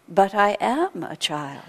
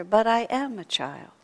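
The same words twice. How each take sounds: First: Put-on slow, plain and matter-of-fact child's answer; simple tone. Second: Said in the usual way. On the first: Wise child answering the exasperated teacher, slow and simple. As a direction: state it simply, as an obvious truth. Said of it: "in a very simple tone of voice". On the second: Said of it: "such a simple answer".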